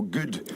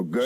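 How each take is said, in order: First: Scottish fronted vowel in "good"; Scottish "good", softer; Scottish accent. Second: American lax vowel in "good"; American accent. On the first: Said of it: "In Scotland, we go". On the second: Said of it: "and in Americans go". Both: Shown as a demonstration.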